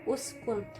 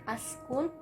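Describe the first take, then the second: First: The word begins with an u vowel. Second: The word begins with an a vowel. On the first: The speaker calls it right. "maka bacanya u" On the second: The speaker calls it wrong. "bukan askun"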